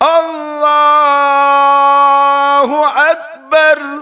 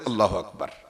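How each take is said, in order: First: It is drawn out slowly and long. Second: It is said quickly and short.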